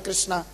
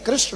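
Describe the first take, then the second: First: The name ends with a long 'aa' vowel. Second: The name ends without a long final vowel. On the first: The speaker calls it wrong. "अब कृष्णा जो है शुद्ध उच्चारण नहीं है" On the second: The speaker calls it right. "कृष्ण है"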